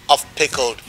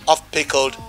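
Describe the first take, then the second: No difference in how they are said.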